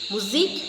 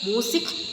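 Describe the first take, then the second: First: It sounds like German 'moo-zeek'. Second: It sounds like English 'myoo-zik'. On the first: The speaker calls it right. "ശരിക്കും മുസീക്" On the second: The speaker calls it wrong. "ഇപ്പോഴും തെറ്റ് പറയാം"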